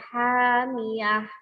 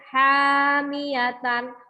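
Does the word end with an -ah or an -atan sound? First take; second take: -ah; -atan. First: The word ends with a short -ah sound. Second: The word ends with a full -atan ending. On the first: The reader stops at this word. "maka saya nanti membacanya hamiyah" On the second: The word is read in connected speech. "Seperti ini juga hamiyatan"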